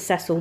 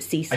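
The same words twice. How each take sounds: First: Cecil is pronounced the British way. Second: Cecil is pronounced the American way. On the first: "We pronounce it Cecil" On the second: "they pronounce it Cecil"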